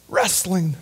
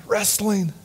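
The two takes are said the same way.

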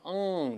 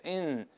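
First: "嗯" as a back-of-tongue "ng" hum; big-nose "ng". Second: "嗯" as a front "n", tongue root flat. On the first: Teacher shows students the wrong sound, "嗯" as back "ng". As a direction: hum "嗯" with the tongue root raised. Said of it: "像一个大鼻子一样". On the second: Teacher shows students the right sound, "嗯" as front "n". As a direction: end "嗯" on a clean front "n". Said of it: "舌根是平的". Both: Shown as a demonstration.

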